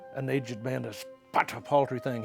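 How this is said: It is read in a bitter tone. Growing old feels bitter. The speaker calls it right. "He wanted the the bitterness of being a, a, an older man there"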